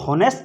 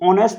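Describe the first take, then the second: First: The word begins with an h sound. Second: The word begins with a vowel sound. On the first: The speaker calls it wrong. "होनेस्ट ना बोल करके" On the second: The speaker calls it right. "इसको ऑनेस्ट बोलते हो"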